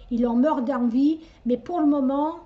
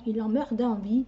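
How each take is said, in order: First: Slipping into an unplaced regional French accent on "il en meurt d'envie", a touch louder; "meurt" rising, in a vague regional French accent. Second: Said in the usual way. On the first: Real, not acted. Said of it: "j'ai pris l'accent de je sais pas d'où". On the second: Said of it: "d'où je pense cet accent".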